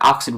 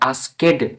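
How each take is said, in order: First: The ending is a single consonant sound. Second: The ending is said as an extra syllable. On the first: The speaker calls it right. "আমরা আস্কড বলছি" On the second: The speaker calls it wrong. "আস্কেড বলছি না"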